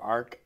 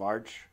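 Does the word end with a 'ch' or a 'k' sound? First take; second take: k; ch. First: The word ends with a 'k' sound. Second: The word ends with a 'ch' sound. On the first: "or Arc. I still don't know how you pronounce it" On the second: "which sits on top of Arch"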